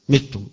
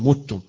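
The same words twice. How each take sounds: First: The vowel after the m is i. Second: The vowel after the m is u. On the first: This is the reading of a minority of reciters. "بالكسر" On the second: This is the majority reading. "وقراءة الجمهور وغير هؤلاء"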